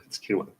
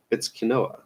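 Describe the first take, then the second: First: "quinoa" said as KEEN-wah, two syllables; correct pronunciation of quinoa. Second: "quinoa" said as kuh-NO-uh, three syllables; "quinoa" with a stressed NO in the middle; mispronounced quinoa. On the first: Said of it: "I know how to pronounce that". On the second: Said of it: "I don't know why I'm mispronouncing it". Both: Real, not acted.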